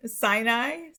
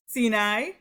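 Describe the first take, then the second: First: "Sinai" as "SIGH-nai"; English pronunciation. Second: "Sinai" as "see-NAI"; Hebrew pronunciation. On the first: Teacher contrasting two forms, "Sinai" as "SIGH-nai". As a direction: say "Sinai" with a long I in the first syllable. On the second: Teacher contrasting two forms, "Sinai" as "see-NAI". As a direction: say "Sinai" with an EE in the first syllable. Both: Shown as a demonstration.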